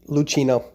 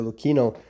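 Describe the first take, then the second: First: The name is pronounced the Spanish way. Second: The name is pronounced the Italian way. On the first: "more Spanish descent would say uh, Lucchino" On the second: "Italians, I believe, say Lucchino"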